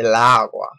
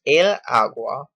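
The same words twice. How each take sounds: First: "la agua" with the two a vowels colliding, a bit louder; strained la agua. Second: "el agua" with the l gliding into agua; smooth el agua. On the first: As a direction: push "la agua" so the a sounds clash. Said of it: "it puts a strain on your voice". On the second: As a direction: let "el agua" flow easily through the l. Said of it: "we use el agua". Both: Shown as a demonstration.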